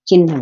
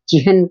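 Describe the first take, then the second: First: The n sound comes before the h sound. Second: The h sound comes before the n sound. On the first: This is how people usually say it. "हम चिन्ह बोल देते हैं" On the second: This is how the word is written. "चिह्न को"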